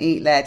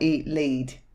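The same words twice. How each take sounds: First: The word lead rhymes with bed. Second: The word lead rhymes with bead. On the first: Bullets made of the metal are being fired. The speaker calls it right. "I'm assuming he's saying eat lead" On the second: Someone is being told to eat a leash or guide. The speaker calls it wrong. "and not eat lead"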